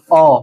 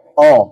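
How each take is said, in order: First: The vowel is a plain, pure O. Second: The vowel lies between A and O. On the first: The speaker calls it wrong. "jangan O ... Itu nggak boleh" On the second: The speaker calls it right. "Antara A dan O"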